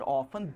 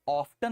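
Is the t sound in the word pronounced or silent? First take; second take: silent; pronounced. First: The t sound in the middle is silent. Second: The t sound in the middle is pronounced.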